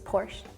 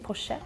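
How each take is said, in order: First: The name is pronounced the English way. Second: The name is pronounced the Swedish way. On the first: "In English is Porsche" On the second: "In Sweden, we say Porsche"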